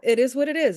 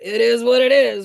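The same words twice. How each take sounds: First: It is said plainly, without a bitter tone. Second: It is said with a resigned, dismissive tone. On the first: Things are simply accepted as they are. The speaker calls it right. "If if you take away the tone from it" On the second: Nothing can be done about it, so why try. The speaker calls it wrong. "this sense of like, well, what are you gonna do?"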